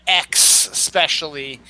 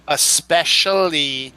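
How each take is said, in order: First: "ex specially" with a split, hit EX; wrong especially. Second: Especially as drawn es-SPESH-ul-ly; proper especially. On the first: Host showing the mistake, slow EX then specially. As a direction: separate and stress ex in "ex specially". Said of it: "not ex specially". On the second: Host correcting, slow es-SPESH-ul-ly for especially. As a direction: keep a clean S in especially. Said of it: "the proper pronunciation is". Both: Shown as a demonstration.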